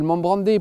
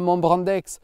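First: The name ends in a vowel, no x. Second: The name ends with a clear x sound. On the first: The speaker calls it right. "On va dire la chapelle Montbrandais, plutôt dans les usages" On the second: The speaker calls it wrong. "de plus en plus, on entend un Montbrandex"

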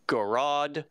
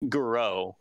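First: The word ends with a D sound. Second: The word ends without a D sound. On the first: The speaker calls it wrong. "like pronouncing the D" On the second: The speaker calls it right. "the closest English approximation to that"

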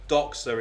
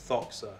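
First: The word begins with a d sound. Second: The word begins with a th sound. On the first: The speaker calls it wrong. "the word doxa" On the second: The speaker calls it right. "is actually pronounced thoxa in Greek"

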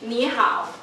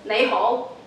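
First: It is pronounced the Mandarin way. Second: It is pronounced the Cantonese way. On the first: "in Mandarin is" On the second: "but in Cantonese is"

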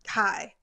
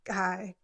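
First: It is said in a normal voice. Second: It is said in a really low voice.

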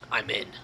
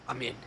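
First: It is said in a put-on hacker voice. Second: It is said in a normal voice.

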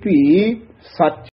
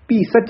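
First: There is a short pause before the last word. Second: The two words run together without a pause. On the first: The speaker calls it right. "होसी भी इत थोड़ा जा ठहरा दे के फिर नखेर के बोलना है सच" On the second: The speaker calls it wrong. "भी सच नहीं कहना है"

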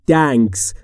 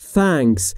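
First: The word starts with a t sound. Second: The word starts with a th sound. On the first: The speaker calls it wrong. "یا نباید بگیم" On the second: The speaker calls it right. "تلفظ درست اینه"

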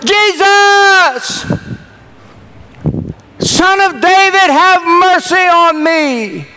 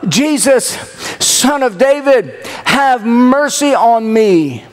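First: It is said much louder, as a shout. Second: It is said at a normal, quieter volume.

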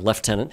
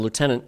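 First: It is said in the officer's British-style pronunciation. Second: It is said in the speaker's own usual pronunciation. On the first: This is how the officer himself says it. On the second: This is the speaker's own way of saying it.

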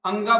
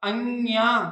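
First: The name ends with a plain 'ga' sound. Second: The name ends with a 'gya' sound. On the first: The speaker calls it wrong. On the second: The speaker calls it right.

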